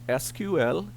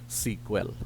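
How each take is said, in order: First: Each letter is spoken separately. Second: It is spoken as one single word. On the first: "spelling out each of the letter" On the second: "as a single word"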